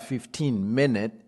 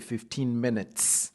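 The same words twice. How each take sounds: First: The final s of minutes is silent. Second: The final s of minutes is pronounced. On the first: The speaker calls it wrong. "ce n'est pas" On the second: The speaker calls it right.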